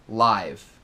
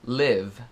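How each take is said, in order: First: The vowel is a long 'eye' sound. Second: The vowel is a short 'ih' sound. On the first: It is the adjective meaning broadcast in real time. "é um adjetivo falando de televisão ou rádio ao vivo" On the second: It is the verb meaning to live or reside. "o primeiro, é como viver ou morar"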